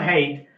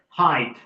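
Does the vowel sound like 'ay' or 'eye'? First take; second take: ay; eye. First: The vowel sounds like 'ay' in 'day'. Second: The vowel sounds like 'eye' in 'my'. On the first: The speaker calls it wrong. "not hate" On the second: The speaker calls it right. "some people pronounce it height"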